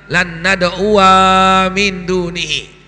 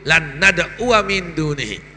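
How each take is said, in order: First: The vowel after nad'u is lengthened. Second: The vowel after nad'u is kept short. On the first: "cara tajwidnya" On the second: "tapi tidak dibaca alif itu"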